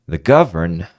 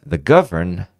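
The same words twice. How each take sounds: The two takes are said the same way.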